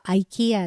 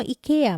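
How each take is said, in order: First: "アイケア" opening on an "eye" sound; English-style "アイケア", first syllable a diphthong; English pronunciation. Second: Said in the usual way. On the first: Shown as a demonstration. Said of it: "英語ではアイケアって発音するの". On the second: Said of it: "日本のイケアも".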